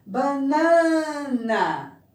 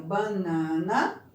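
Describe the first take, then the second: First: Banana very slowly, with a high, loud, long middle NA; stress on middle syllable. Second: Said in the usual way. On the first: Shown as a demonstration. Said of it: "Qual é a mais forte?". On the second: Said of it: "nós temos primeiro banana".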